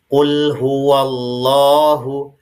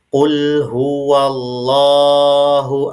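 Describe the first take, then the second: First: The long vowel is held for two beats only. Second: The long vowel is held for more than two beats. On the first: The speaker calls it right. "dipanjangkan dua harokat ya. Caranya diayun ya" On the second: The speaker calls it wrong. "ini terdengar lebih dari dua harokat. Ini tidak boleh"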